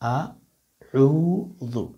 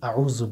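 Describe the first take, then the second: First: It opens with a glottal stop, then a throat consonant. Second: The opening sound is not a clean glottal stop. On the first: The speaker calls it right. "শুরুটা হচ্ছে হামজা, পরেরটা হচ্ছে আইন" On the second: The speaker calls it wrong. "অনেকে আউযু বলেন, এটা হলো ভুল উচ্চারণ"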